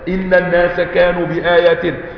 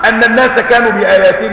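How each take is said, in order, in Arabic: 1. الكلمة الأولى تبدأ بصوت 'i'. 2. الكلمة الأولى تبدأ بصوت 'a'. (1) "لكن لما نقول إن هيبقى كلام جديد، استئناف" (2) "أن يبقى الكلام الكلام متصل"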